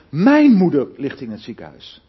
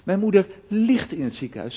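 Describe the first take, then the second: First: The stress is on the word mijn. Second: The stress is on the word ligt. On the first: It is this person's mother, not someone else's. "Begin maar eens even de klemtoon te leggen op mijn" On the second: She is bedridden, not a walking patient. "Of als ik de klemtoon leg op ligt"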